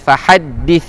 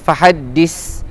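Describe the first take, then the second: First: The final consonant is made with the tongue out. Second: The final consonant is a plain hissing s. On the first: The speaker calls it right. "kena keluarkan sedikit lidah kita" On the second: The speaker calls it wrong. "bukan fahaddis. Dis dis salah"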